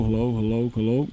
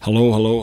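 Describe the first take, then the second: First: Voice from behind the mic. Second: Said in the usual way. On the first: Shown as a demonstration. Teacher tests the back of the SM58 to show how it rejects the voice. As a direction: say hello round the back of the mic. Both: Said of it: "You can hear the rejection of this guy here".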